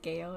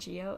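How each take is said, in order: First: It starts with a hard 'g' sound. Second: It starts with a soft 'j' sound. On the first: The speaker calls it right. "it is Gale" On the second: The speaker calls it wrong. "it's not Geo"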